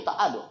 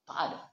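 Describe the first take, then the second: First: Said in the usual way. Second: Soft echo. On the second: Real, not acted. Preacher echoing his own denial to the crowd, much softer. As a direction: repeat it much softer, almost to yourself.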